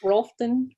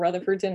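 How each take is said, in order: First: The name is squeezed into two short syllables. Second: The name is said fully, with every syllable. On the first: The speaker sounds like a local. The speaker calls it right. "depending on what part of the county you live in" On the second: The speaker sounds like an outsider. The speaker calls it wrong. "I pronounced it out. So clearly I'm not from here"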